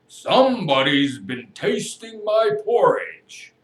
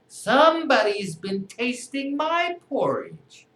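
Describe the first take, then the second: First: It is said in a deep, big voice. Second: It is said in a medium-sized voice.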